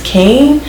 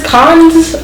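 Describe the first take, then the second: First: The name is said like "Kane." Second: The name is said like "cons." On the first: The speaker calls it right. "It's Kane" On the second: The speaker calls it wrong. "How do you say this? Cons?"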